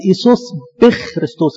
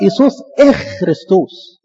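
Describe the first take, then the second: First: بخ خريستوس said with a b sound, the wrong way; wrong pronunciation. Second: Slow, careful إخ خريستوس, no b before إخ; correct pronunciation. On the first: Teacher showing the common wrong way: بخ with b. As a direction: say بخ with a plain b at the start. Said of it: "الكلام ده غلط". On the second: Teacher showing the right way: slow إخ without b. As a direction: spell out إخ slowly, with no b at the start. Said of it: "أمال هي تتنطق إزاي؟". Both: Shown as a demonstration.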